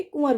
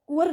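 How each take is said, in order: First: कुंवर as kun-ar, no w; correct pronunciation. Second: कुंवर as ku-war; कुंवर, short vowels, ku-war; wrong pronunciation. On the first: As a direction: drop the w from कुंवर. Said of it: "कुंवर होगा". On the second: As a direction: say कुंवर with a w glide. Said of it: "कुंवर ना होके". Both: Shown as a demonstration.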